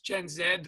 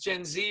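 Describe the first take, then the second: First: Z is said the Canadian way, as zed. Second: Z is said the American way, as zee.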